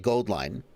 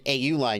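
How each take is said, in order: First: The name begins with the word 'gold'. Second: The name begins with an 'ow' sound. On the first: The speaker calls it right. "you should say Goldline" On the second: The speaker calls it wrong. "instead of saying Aoline"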